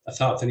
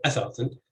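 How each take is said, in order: First: Athathan with the stress off the opening syllable, on the one after it; stress after first syllable. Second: Athathan with the opening syllable stressed; stress on first syllable. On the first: Linguist showing listeners the accepted form, stress on second syllable of athathan. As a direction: say athathan as a-THA-than. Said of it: "So you'd say". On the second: Linguist showing listeners the form not used, initial stress on athathan. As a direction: say athathan as A-tha-than, hitting the first A. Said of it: "you wouldn't say athathan". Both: Shown as a demonstration.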